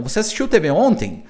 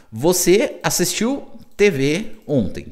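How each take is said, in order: First: Said in the usual way. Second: Slow, word-by-word teacher reading; measured, spaced-out demo question; slow translation. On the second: Shown as a demonstration. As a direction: lay out the question slowly for learners.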